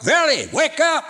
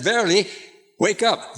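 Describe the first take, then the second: First: Shouted much higher and louder, "Verily, wake up" flung out; emphatic shout. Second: Said in the usual way. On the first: Shown as a demonstration. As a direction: repeat it as a big shouted wake-up. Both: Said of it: "God just says it twice".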